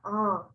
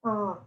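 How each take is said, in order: The two takes are said the same way.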